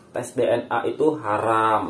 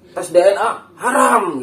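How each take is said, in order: First: Said in the usual way. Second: High, loud, drawn-out HARAM; mock fiery preacher. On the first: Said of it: "nggak perlu pakai nyentak-nyentak". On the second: Host shows friends how habaib preach, mock high-pitched shout. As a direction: imitate a preacher thundering the last word, half laughing. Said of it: "ciri khas habaib kalau ceramah begitu".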